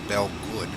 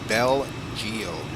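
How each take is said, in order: First: The name ends with a 'good' sound. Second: The name ends with a 'geode' sound. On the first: The speaker calls it wrong. "At least they're not pronouncing it Bell Good like some people do online" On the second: The speaker calls it right. "It's Bell Geode"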